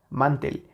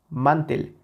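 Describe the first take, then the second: First: The stress is on the first syllable. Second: The same.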